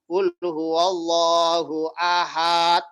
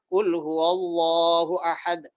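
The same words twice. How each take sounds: First: The final syllable of ahad is drawn out long. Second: The final syllable of ahad is kept short. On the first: The speaker calls it wrong. "Hak haknya dibaca panjang" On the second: The speaker calls it right. "Saya langsung seperti itu"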